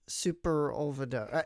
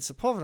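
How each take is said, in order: First: The name begins with a 'super' sound. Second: The name begins with a 'sepul' sound. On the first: The speaker calls it wrong. "I thought it was Superolveda" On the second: The speaker calls it right. "oh, that's how you say it"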